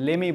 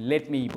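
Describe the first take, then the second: First: The two words are run together. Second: The two words are said separately. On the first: This is casual speech. The speaker calls it wrong. "Formally কথা বলছি আমি লেমেই বলবো না" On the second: This is formal speech. The speaker calls it right. "আমি লেট মিই বলবো"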